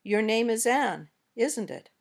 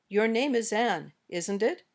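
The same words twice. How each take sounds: First: "isn't it" drops at the end; falling tag intonation. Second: "isn't it" rises at the end; rising tag intonation. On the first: Teacher shows second kind of tag question, falling tag. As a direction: let "isn't it" fall, as if already sure. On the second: Teacher shows first kind of tag question, rising tag. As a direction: lift the voice on "isn't it" as a real question. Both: Shown as a demonstration. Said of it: "two different kinds of intonation".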